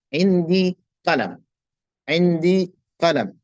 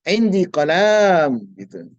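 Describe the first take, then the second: First: "Indi qalam" slow, with a short lam and the mim closed; correct reading. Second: "qalam" said slowly with the lam vowel drawn out; wrong long lam. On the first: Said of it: "Mimnya disukunkan". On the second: Teacher showing the wrong long lam. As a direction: stretch the lam of "qalam" to show the mistake. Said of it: "Jangan panjang pula lamnya". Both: Shown as a demonstration.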